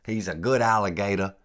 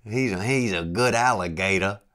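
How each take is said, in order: First: Mock Louisiana guide praising a pet; Louisiana accent. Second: Failed Louisiana imitation, louder; Louisiana accent attempt. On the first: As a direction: imitate the Cajun guide cooing at his alligator. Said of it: "he got that Louisiana accent". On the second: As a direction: try the Cajun guide's praise and miss. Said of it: "I can't do it".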